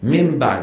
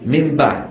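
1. النون تتحول إلى صوت m. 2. النون تتحول إلى صوت m.

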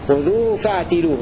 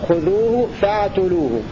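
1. بعد التاء صوت i. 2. بعد التاء صوت u. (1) "بكسر التاء لأبي عمرو والكوفيين" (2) "يقرؤون بالضم"

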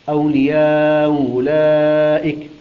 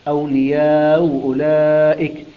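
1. يُمَدّ حرف المد توسطًا. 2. يُمَدّ حرف المد توسطًا.

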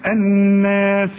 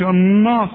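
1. النون والألف اللي بعدها مرققة. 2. النون والألف اللي بعدها مفخمة. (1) "النون دائما مرققة" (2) "شوف مش الناس بقى"

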